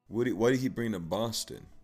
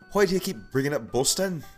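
First: It is said in the speaker's normal accent. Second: It is said in an Irish accent.

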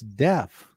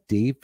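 First: The vowel sounds like the one in left. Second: The vowel sounds like the one in leaf. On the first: This is the way listeners insisted on. The speaker calls it right. "it's deaf" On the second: This is the regional way the speaker said it. The speaker calls it wrong. "It's not deaf"

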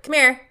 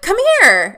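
First: It is said flatly, without excitement. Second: It is said excitedly.

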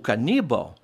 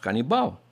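First: The stress falls where Spanish speakers place it. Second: The stress falls where Portuguese speakers place it. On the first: "O caníbal é" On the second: "o nosso canibal"

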